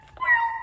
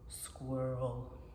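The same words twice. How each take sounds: First: It is said in a very high voice. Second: It is said in a very low voice.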